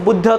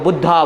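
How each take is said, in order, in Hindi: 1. नाम व्यंजन पर खत्म होता है, अंत में कोई स्वर नहीं। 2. नाम लंबे अंतिम 'a' स्वर के साथ खत्म होता है। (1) "बुद्ध जो थे" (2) "एसेंट के चक्कर में ... अभी उनको बुद्धा बोलते हैं"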